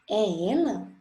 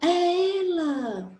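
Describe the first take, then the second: First: It is said as a question. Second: It is said as a surprised exclamation.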